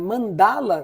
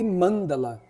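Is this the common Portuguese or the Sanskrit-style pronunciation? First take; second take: common; Sanskrit. First: It is said in the common Portuguese way. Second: It is said in the Sanskrit-style way. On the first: This is how most people say it. "muito mais comum elas falarem mandala" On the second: This is the proper original form. "do que mandala"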